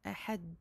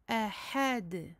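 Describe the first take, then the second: First: The final D is held without any bounce. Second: The final D is released with a slight bounce. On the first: The speaker calls it wrong. "nous ne restons pas sur le dal en disant ahad" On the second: The speaker calls it right. "attention à faire la qalqala de fin de verset ici"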